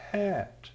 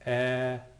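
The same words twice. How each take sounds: First: Hat with a long, breathed h at the start; hat led in by an audible puff of h; h sound added. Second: At starting straight on the vowel; no h sound. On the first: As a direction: push out the h of hat, softly. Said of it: "it sounds like the letter H". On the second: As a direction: say at with no h in front. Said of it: "A smooth breathing doesn't make any sound". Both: Shown as a demonstration.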